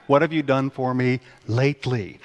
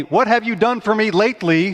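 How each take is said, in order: First: Said in the usual way. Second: Higher, louder demanding fan. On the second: Retold or imitated. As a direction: needle the coach like a fed-up fan. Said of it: "I call it the".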